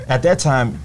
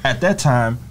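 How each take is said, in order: Both takes have the same delivery.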